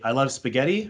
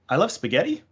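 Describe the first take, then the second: First: The pitch falls at the end. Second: The pitch rises at the end. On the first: It is a statement. "a statement" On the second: It is a question. "a question"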